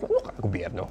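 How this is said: It is said in a dry, sarcastic tone.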